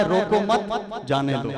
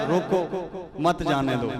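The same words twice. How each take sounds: First: "روکو مت" run together, break, then "جانے دو"; pause after مت. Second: "روکو،" set apart, then "مت جانے دو" as one phrase; pause after روکو. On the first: Scholar showing the permitting reading, pause after مت. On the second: Scholar showing the forbidding reading, pause after روکو. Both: Shown as a demonstration. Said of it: "پڑھنے میں مختلف ہے".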